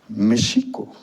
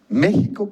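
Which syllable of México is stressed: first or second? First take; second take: second; first. First: The stress is on the second syllable. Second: The stress is on the first syllable. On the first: It represents the reflection of the sun, the moon. "con acento en la I" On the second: It represents what we live. "con acento en la E"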